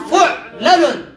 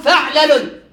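First: «فعلل» as fu'-la-lun, drawn out slowly; damma on fa. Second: «فعلل» as fa'-la-lun; fatha on fa. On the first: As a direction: say «فعلل» slowly with u on fa, a on first lam. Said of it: "والضم فنقول". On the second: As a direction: say «فعلل» with short a on fa and first lam. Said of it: "الفتح فنقول". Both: Shown as a demonstration.

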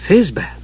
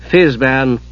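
First: Higher, questioning awe; wondering. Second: Said in the usual way. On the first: A narrator's reading. Usha stares at the old wizard, wondering. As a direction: ask the name in wonder. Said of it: "Usha stared at him in wonder". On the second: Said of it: "said Palin".

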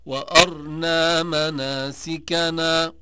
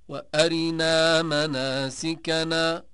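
First: Slow chant, وأرنا as "wa-arnaa", no vowel after r; silent-vowel r. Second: Slow chant, وأرنا as "wa-arinaa", brief i after r; short i on r. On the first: Teacher showing Ibn Kathir's reading, وأرنا chanted as "wa-arnaa". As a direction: close the r straight onto n in وأرنا. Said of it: "قرأ ابن كثير والسوسي". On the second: Teacher showing al-Duri's reading, وأرنا chanted as "wa-arinaa". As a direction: slip a quick i between r and n in وأرنا. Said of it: "قرأ الدوري عن أبي عمرو". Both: Shown as a demonstration.

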